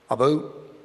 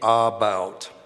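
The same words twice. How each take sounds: First: It is said in a Canadian accent. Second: It is said in an American accent.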